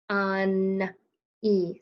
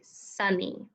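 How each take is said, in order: First: "Sunny" stretched out sound by sound; tapped-out sounds. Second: Said in the usual way. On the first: Shown as a demonstration. Teacher tapping out a word for the learner, "Sunny" in separate sounds. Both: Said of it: "Let's tap it out".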